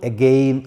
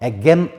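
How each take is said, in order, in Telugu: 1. రెండో అచ్చు దీర్ఘం, 'gain' లాగా. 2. రెండో అచ్చు హ్రస్వం, 'gen' లాగా. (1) "అగెయిన్ అని లాంగ్ ఓవల్తోని పలకొచ్చు" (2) "దీన్ని అగెన్ అని పలకొచ్చు"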